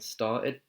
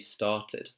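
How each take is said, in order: First: The middle T sound is dropped. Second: The middle T sound is clearly pronounced. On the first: "In [name]'s accent, he's saying started ... and he's dropping that T there" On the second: "in the R P accent, received pronunciation, it would be started"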